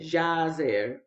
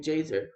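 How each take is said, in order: First: The name is said with Spanish-style sounds. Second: The name is said with English-style sounds. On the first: "I try to pronounce these biblical names as if they were Spanish names" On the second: "even though it says here"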